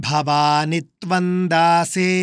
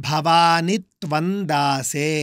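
No difference in how they are said.

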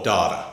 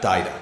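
First: It is said in the local Australian pronunciation. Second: It is said in a non-local pronunciation.

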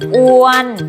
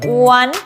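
First: The pitch stays level in the middle. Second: The pitch is high and climbing. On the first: "ออัวนออ้วน" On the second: "อ้วนไม้ตรีอ้วน"

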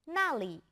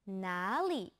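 First: The first syllable has a sharp falling tone. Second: The first syllable has a low dipping tone. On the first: It means there. "fourth tone" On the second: It asks where. "third tone"

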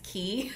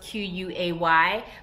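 First: The word is pronounced like 'key'. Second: The word is pronounced like 'kway'. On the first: The speaker calls it right. "I know the proper pronunciation is Key" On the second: The speaker calls it wrong. "I always want to say Quay because it's spelled Q-U-A-Y"

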